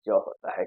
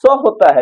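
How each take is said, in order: First: ज as a buzzing English z, low and soft; z sound. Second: स as a crisp hissing English s, a bit higher; s sound. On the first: Teacher contrasting z with s for students. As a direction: voice the ज as z, not s. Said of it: "इसका उच्चारण". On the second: Teacher contrasting s with z for students. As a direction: hit the स as a clear s. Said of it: "उसका उच्चारण क्या होता है?". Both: Shown as a demonstration.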